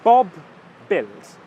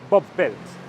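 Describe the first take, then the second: First: It is said at a slower, careful pace. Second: It is said at a fast, natural pace.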